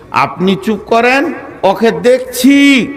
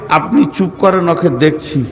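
First: High, drawn-out promise to deal with him; committee man stepping in. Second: Said in the usual way. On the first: Acted. Committee man to the crying preacher about his attacker, high emphatic assurance. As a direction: pitch it up and stretch the last word. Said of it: "এটা বলবি". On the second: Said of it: "তো committee উত্তর কি দেবে আমাকে?".

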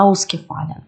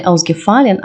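First: Ausgefallen with the first syllable AUS stressed; AUS-gefallen, prefix accented. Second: Ausgefallen with stress moved onto FAL; unstressed aus in ausgefallen, accent later; misplaced stress. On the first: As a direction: land on Aus in ausgefallen, falling after. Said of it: "він вимовляється з наголосом". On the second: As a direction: lean on the third syllable, ausgeFALlen. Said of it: "Не ausgefallen". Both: Shown as a demonstration.

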